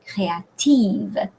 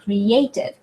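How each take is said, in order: First: Créative with the stress at the end, slowly; French créative, land on the last syllable. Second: Creative stressed on the second syllable, cray-AY-tiv; English Creative, push the second syllable. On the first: Teacher contrasting English and French, French créative stressed at the end. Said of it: "In French". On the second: Teacher contrasting English and French, English Creative on second syllable. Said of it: "On the second syllable". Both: Shown as a demonstration.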